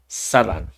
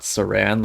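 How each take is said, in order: First: It is said the native way, unlike the wrap. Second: It is said the English way, like the wrap. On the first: The speaker calls it right. "is how she pronounced it" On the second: The speaker calls it wrong. "like how we pronounce it, us Westerners over here"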